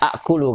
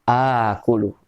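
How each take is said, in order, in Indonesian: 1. Hentian glotal terdengar sebelum k. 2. Vokal pertama panjang tanpa hentian. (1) "Aslinya akulu kan?" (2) "kalau ada dua hamzah, satu hidup satu mati maka dijadikan panjang"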